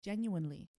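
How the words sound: It is said in an American accent. "When I said genuinely, did I sound American?"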